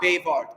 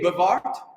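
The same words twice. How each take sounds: First: The first vowel is said full and clear. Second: The first vowel is reduced to a weak schwa. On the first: The speaker calls it wrong. "not bewahrt" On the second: The speaker calls it right. "I was want to say bewahrt"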